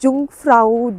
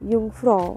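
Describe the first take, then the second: First: The word begins with a J sound. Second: The word begins with a Y sound. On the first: The speaker calls it wrong. "पहले मैं बोलती थी" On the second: The speaker calls it right. "It's युंग युंगफ्रॉ"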